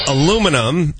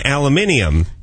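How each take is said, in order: First: It is said the American way, four syllables. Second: It is said the British way, five syllables. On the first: "than we spell aluminum" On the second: "They spell aluminium differently"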